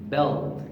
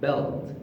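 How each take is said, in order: Both takes have the same delivery.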